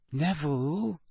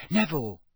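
First: Gentle. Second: Higher, brisk call of a name. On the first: Girl approaches friend standing alone, gentle. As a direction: check on him carefully. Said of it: "Hermione said gently". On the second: Girl spots friend in passage, calling out. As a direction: catch a friend's attention. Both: A narrator's reading.

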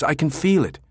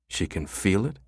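First: Said in the usual way. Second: Soft, disbelieving murmur; quiet inner thought. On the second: A narrator's reading. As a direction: mutter it to yourself skeptically. Jabba's inner thought echo.

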